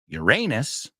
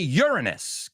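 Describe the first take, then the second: First: It is said like the phrase 'your anus'. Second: It is said like the phrase 'urine is'. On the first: It sounds like a rude word for a body part. "Americans say Uranus, que es literalmente tu ano al decirlo" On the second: It sounds like a phrase about urine. "British say Uranus, que es literalmente orina is"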